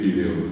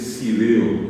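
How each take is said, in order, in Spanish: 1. La palabra empieza con sonido f. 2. La palabra empieza con sonido s. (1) "en vez de decir fideo" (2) "hay gente que en Paraguay dice sideo"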